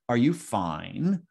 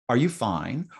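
First: It is said in a low, downcast tone. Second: It is said in a bright, upbeat tone. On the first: Things are going badly. "a thumbs down fine" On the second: Things are going well. "a thumbs up fine"

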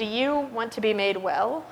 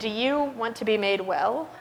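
First: The question sounds cold and contemptuous. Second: The question sounds cold and contemptuous.

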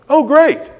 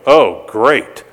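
First: It sounds sincerely pleased. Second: It sounds sarcastic and displeased.

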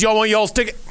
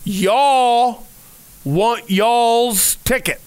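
First: It is said at normal conversational speed. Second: It is said very slowly and deliberately.

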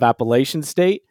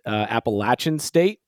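First: The third syllable sounds like 'lay'. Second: The third syllable sounds like 'latch'. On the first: The speaker calls it wrong. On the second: The speaker calls it right.

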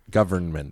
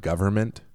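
First: The N in the middle is clearly pronounced. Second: The N in the middle is dropped.

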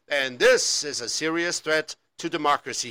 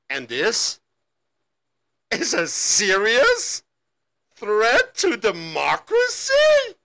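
First: It is said earnestly, like a news anchor. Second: It is said skeptically, doubting the claim.

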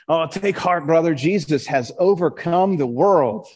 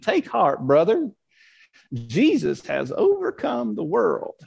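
First: It is said in his ordinary accent. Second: It is said in a Southern accent.

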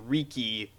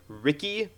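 First: The name does not sound like English Ricky. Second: The name sounds like the English name Ricky. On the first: The speaker calls it right. "everyone was pronouncing it Riki properly" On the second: The speaker calls it wrong. "they were pronouncing it like Riki, like, you know, like R-I-C-K-Y"

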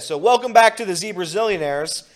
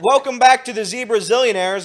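First: It is said in his natural voice. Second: It is said in a put-on character voice.

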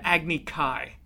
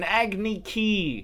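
First: The term is said in its original pronunciation. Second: The term is said in an altered pronunciation. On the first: This is how the term is said in the show. The speaker calls it right. "it's called an Agni Kai" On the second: This is how the term is said in the movie. The speaker calls it wrong. "they're like, yeah, it was an Agni Ki"

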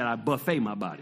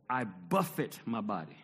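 First: The stress is on the second syllable. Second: The stress is on the first syllable. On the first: I feed my body lavishly. The speaker calls it wrong. "misread that and thought he said" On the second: I treat my body harshly. The speaker calls it right. "He said buffet"

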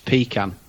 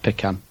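First: It is said with the British pronunciation. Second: It is said with the American pronunciation. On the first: The speaker calls it right. "That's for UK listeners, that's pecan" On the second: The speaker calls it wrong. "not pecan"

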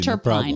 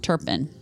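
First: The last syllable sounds like 'pine'. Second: The last syllable sounds like 'pin'. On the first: The speaker calls it wrong. "I'm sorry I got it wrong, you guys" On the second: The speaker calls it right. "Turpin, absolutely"

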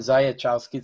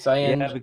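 First: The second vowel is plain, with no N sound. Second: The second vowel is nasal, with an N sound. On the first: The speaker calls it wrong. "I would have gone Zajączkowski. So it's wrong" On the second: The speaker calls it right. "So it's Zajączkowski"

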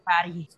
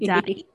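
First: The voice falls at the end. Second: The voice rises at the end.

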